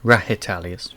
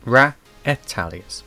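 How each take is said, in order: First: The H sound in the name is pronounced. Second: The H sound in the name is silent. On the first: The speaker calls it wrong. "like I was saying it" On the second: The speaker calls it right. "The H is silent apparently"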